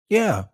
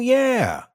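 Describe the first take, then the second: First: It is said flatly with low intensity. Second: It is said with heightened emotional intensity. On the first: The speaker has no emotional connection to the topic. "So that's very neutral" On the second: The speaker has an emotional connection to the topic. "listen to how the intensity changes when I say something that has an emotional connection"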